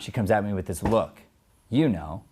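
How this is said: A full stop-like break comes before 'you know'. The speaker calls it wrong. "It's not"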